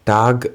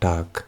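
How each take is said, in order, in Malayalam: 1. ഈ വാക്ക് ഘോഷമുള്ള ഗ് ശബ്ദത്തിലാണ് അവസാനിക്കുന്നത്. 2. ഈ വാക്ക് ഘോഷമില്ലാത്ത ക് ശബ്ദത്തിലാണ് അവസാനിക്കുന്നത്. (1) "ടാഗ് എന്ന് നമ്മൾ പ്രൊനൗൺസ് ചെയ്യരുത്" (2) "കെ ആയിട്ടാണ് നമ്മൾ ഇതിനെ പ്രൊനൗൺസ് ചെയ്യേണ്ടത്"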